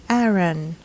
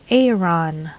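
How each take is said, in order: First: Aaron as AIR-un; flat A and weak ending in Aaron, AIR-un; native English pronunciation. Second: Aaron as AY-ron; long AY and full RON in Aaron; local mispronunciation. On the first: Teacher models native speakers' way, Aaron as AIR-un. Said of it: "native English speakers would pronounce this". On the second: Teacher shows how locals say it, Aaron as AY-ron. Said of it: "Some of us locals would say". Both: Shown as a demonstration.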